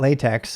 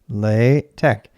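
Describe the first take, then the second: First: The word ends with a ks sound. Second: The word ends with a k sound. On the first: The speaker calls it wrong. "It's not latex" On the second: The speaker calls it right. "that is not with the K S pronunciation. English speakers normally associate with X, but with K"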